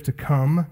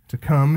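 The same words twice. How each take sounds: First: "to come" lifted up on come; "to come" with a rising, highlighted come; stress on come. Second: "To come" set down firmly, falling; plain falling "To come"; repeated for emphasis. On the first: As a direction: lean on "come" with a questioning lift. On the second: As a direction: settle the word "come" with a firm fall. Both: Shown as a demonstration. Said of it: "Another present tense verb".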